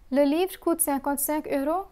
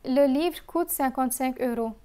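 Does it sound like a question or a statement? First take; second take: question; statement. First: It is said with question intonation. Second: It is said with statement intonation. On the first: It asks whether the book costs that much. "I'll again repeat the question" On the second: It confirms that the book costs that much. "and answer. Note the change in intonation"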